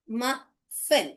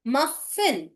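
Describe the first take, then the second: First: "Muffin" broken in two, "muh", long pause, "fin"; split into syllables. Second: Said in the usual way. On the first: Shown as a demonstration. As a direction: sound out "Muffin" slowly with a gap in the middle. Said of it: "mu sound". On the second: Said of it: "Muffin is short U".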